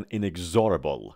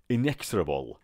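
First: "inexorable" with the x voiced as gz, "in-eg-ZOR-a-bol"; mispronounced X. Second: "Inexorable" as "in-EKS-ra-bol", with a crisp ks; correct model pronunciation. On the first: Teacher showing students a common mistake, mispronounced "inexorable". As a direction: say "inexorable" wrongly with a buzzing z and a full ZOR. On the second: Teacher correcting the mistake for students, "Inexorable" with ks. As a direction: stress EKS in "Inexorable" and shorten the middle. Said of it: "تلفظ این لغت inexor نیست". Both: Shown as a demonstration.

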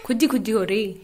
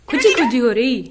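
First: Said in the usual way. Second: खुजी खुजी said louder, fond and playful; loud affectionate pet talk; louder cooing. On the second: Real, not acted. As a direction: call खुजी खुजी out louder to the parrot. Cooing to parrot, louder repeat.

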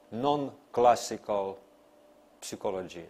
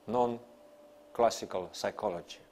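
No difference in how they are said.

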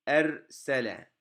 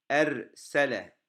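No difference in how they are said.

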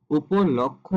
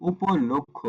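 First: "উপলক্ষ" with open lawk-kho; ভুল উচ্চারণ. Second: "উপলক্ষ" with rounded lok-kho; closed o after l in "উপলক্ষ"; সঠিক উচ্চারণ. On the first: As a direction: open vowel after l in "উপলক্ষ". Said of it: "ভুল উচ্চারণ". ("উপলক্ষ"-এ ল-এ খোলা অ) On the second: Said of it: "উচ্চারণটি হবে". ("উপলক্ষ"-এ ল-এ ও ধ্বনি) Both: Shown as a demonstration.

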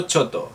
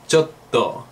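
First: Choto with a single short t, no held consonant; the Spanish-speaker mistake: choto with one quick t; wrong short choto. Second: Chotto with a held double t, slow; careful teacher model of chotto; correct chotto. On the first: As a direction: say choto clipped, no pause on the t. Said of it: "Si no pareceremos chinos". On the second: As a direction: pause on the t in chotto before releasing. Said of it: "Es chotto". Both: Shown as a demonstration.

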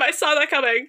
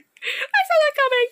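First: Said in the usual way. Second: High taunt. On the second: Real, not acted. Mock sing-song repeat.

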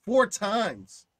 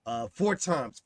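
First: Four times said higher and louder; emphatic repeat. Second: Said in the usual way. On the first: Real, not acted. Host stressing boys' suicide rate, emphatic and raised. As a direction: hammer the number home.

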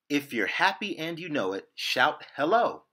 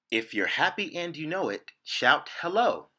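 No difference in how they are said.

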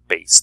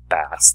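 First: "bass" said like the guitar, rhyming with "base". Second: "bass" said like the fish, with a short a as in "mass". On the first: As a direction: say "bass" with a long a, like "face". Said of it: "or bass the guitar". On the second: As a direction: say "bass" to rhyme with "pass". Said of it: "Examples would be like bass the fish". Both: Shown as a demonstration.

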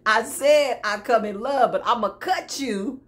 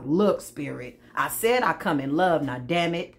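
First: Louder, emphatic playful threat; hammed-up warning, punched out loud; mock threat. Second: Low, fed-up plea to Spirit; exasperated believer. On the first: Acts out the fed-up believer's threat. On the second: Acted. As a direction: plead your case, mildly exasperated. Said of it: "You like".

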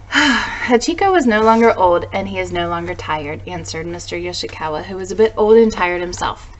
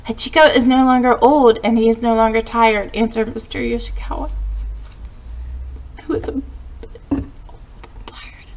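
First: Said in the usual way. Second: Real choked-up reading that falters; fighting back tears. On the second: Real, not acted. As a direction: read on until tears stop you. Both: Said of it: "I've got myself back together".

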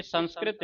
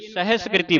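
First: ਸੰਸਕ੍ਰਿਤ soft, with n and no final i; wrong reading. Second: ਸਹਿਸਕ੍ਰਿਤੀ with h and long final i; correct pronunciation. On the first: Teacher naming the congregations' mistake, soft mispronunciation. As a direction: say ਸੰਸਕ੍ਰਿਤ quietly, without the h. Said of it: "ਇਹ ਸੰਸਕ੍ਰਿਤ ਨਹੀਂ ਗੀ". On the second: Teacher correcting the usual mistake, every syllable sounded. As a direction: sound se-hes-kri-ti in ਸਹਿਸਕ੍ਰਿਤੀ. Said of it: "ਇਹਨੂੰ ਸਹਿਸਕ੍ਰਿਤੀ ਬੋਲਣਾ ਹੈ". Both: Shown as a demonstration.

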